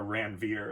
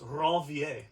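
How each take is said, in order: First: The name is said with an American pronunciation. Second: The name is said with a French pronunciation. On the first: "if you want to use a Americanized pronunciation" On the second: "But he was French, so it's Ranvier"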